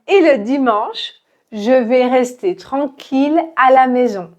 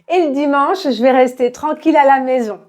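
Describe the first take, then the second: First: The sentence is spoken slowly and carefully. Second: The sentence is spoken very quickly. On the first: "prenons cette phrase doucement" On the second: "très rapidement"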